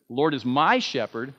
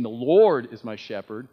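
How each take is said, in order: First: "my" lifted above the other words; stress on my. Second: "Lord" raised and punched; stress on Lord. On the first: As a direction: hit the word "my". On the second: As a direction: put the weight on "Lord". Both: Shown as a demonstration. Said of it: "bring the emphasis".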